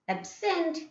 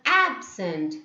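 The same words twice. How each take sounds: First: The stress is on the second syllable. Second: The stress is on the first syllable.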